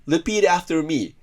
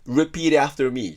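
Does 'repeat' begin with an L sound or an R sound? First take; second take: L; R. First: Repeat begins with an L sound. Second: Repeat begins with an R sound. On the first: The speaker calls it wrong. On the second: The speaker calls it right.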